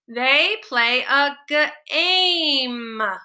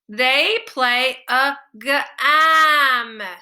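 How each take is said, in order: First: The vowel is a long a sound. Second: The vowel is a short a sound. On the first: The speaker calls it right. "try the long vowel" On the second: The speaker calls it wrong. "Not a word. Doesn't sound right"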